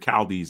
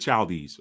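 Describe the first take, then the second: First: The ch at the start is hard. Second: The ch at the start is soft.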